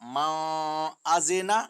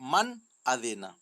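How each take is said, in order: First: The n is hidden in a nasal sound. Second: The n is pronounced clearly without nasalization. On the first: The speaker calls it wrong. "नहीं पढ़ेंगे" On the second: The speaker calls it right. "बल्कि"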